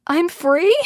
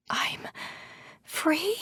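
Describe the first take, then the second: First: High, incredulous repeat; raised voice, astonished rising question; louder question. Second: Hushed, halting, tiny voice lifting high; soft, disbelieving whisper; whispered question. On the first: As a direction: ask it out loud, pitch leaping upward. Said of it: "I ask louder". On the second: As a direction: whisper it hesitantly, rising on the last word. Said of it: "I whisper". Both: A narrator's reading.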